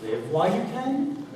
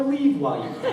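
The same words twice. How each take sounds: First: "Live" said with a short i, like give; "Live while you can" with a short i in Live, rising on can; the line heard as "live". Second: "Leave" said with a long ee, like leaf; "Leave while you can" with a long ee in Leave, pitched up with a laugh; the line heard as "leave". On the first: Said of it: "Is she saying". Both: Shown as a demonstration.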